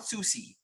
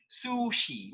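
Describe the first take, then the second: First: Sushi with a plain S; wrong sushi. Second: Sushi with a soft SH; correct sushi. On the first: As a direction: say sushi as susi. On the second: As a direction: say sushi, sh in the middle. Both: Shown as a demonstration. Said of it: "not sushi".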